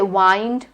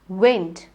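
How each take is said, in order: First: The vowel is a long I sound. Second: The vowel is a short E sound. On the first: The speaker calls it wrong. "You don't say wind" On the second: The speaker calls it right. "You say wind. It's the short E"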